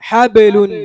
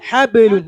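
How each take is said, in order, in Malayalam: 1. b തുറന്നുവിടുന്നു, പ്രതിധ്വനിയുള്ള ബൗൺസോടെ. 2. b തുറന്നുവിടുന്നു, പ്രതിധ്വനിയുള്ള ബൗൺസോടെ.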